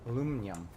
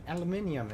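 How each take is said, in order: First: It is said the American way, four syllables. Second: It is said the British way, five syllables. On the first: "is what it's called in American" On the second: "as the British say"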